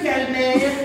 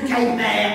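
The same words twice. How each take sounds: First: The name is said in a normal voice. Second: The name is said in a murmur.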